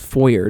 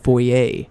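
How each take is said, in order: First: The word is pronounced in a plain, ordinary way. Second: The word is pronounced in a fancy, refined way. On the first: The speaker is not fancy. "just talks to" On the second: The speaker is posh and refined. "very very very very fancy kind of way"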